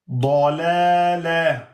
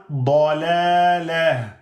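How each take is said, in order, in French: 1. Le mot finit sur un son 'a' bref, -a. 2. Le mot finit sur un son 'a' bref, -a.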